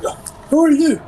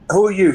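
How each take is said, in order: First: It is spoken in a put-on character voice. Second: It is spoken in a deeper, natural voice. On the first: The character is still in disguise. "I wouldn't be speaking in the fake voice, would I?" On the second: The character's disguise has worn off. "Your voice has gotten deeper"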